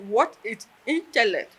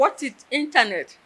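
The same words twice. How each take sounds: First: "intellect" said with an L in the last syllable; lecturer's question, intellect. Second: "internet" said with an N in the last syllable; higher, louder question with "internet", ending in -net; misheard question, internet. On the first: Retelling the lecturer's test question, "intellect" said with L. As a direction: ask the question with "intellect", ending in -lect. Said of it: "and she said". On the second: Student repeating what she misheard, "internet" said with N. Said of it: "What did I hear?". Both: Retold or imitated.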